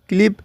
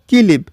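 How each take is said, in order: First: The k and l are joined without a vowel. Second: An i vowel is inserted between k and l.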